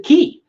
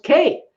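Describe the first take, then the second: First: Key said with an ee vowel, like a door key; Key, long ee sound; "Key" pronunciation. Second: K said like the letter, with an ay vowel; K, long ay sound; "Kay" pronunciation. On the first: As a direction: say Key to rhyme with see. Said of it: "you pronounce it Key". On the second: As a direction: say K to rhyme with day. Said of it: "It's pronounced K". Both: Retold or imitated.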